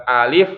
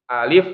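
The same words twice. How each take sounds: Both takes have the same delivery.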